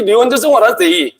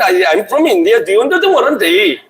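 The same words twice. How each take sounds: First: Very slow English with a light Indian lilt, stress on what; mock Indian accent. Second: Very slow English, a light Indian lilt; hammed-up Indian English with a laugh; mock Indian accent. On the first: Preacher repeating his Indian caricature for the crowd, mock Indian accent. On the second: Preacher imitating how Indian people talk, very slow mock Indian English. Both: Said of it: "This is Indian people, they talk this, this way".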